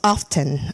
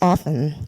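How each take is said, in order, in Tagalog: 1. Binibigkas ang tunog ng t. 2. Tahimik ang tunog ng t. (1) "Sa Canadian na ano is often" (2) "American English is often. Yung silent T"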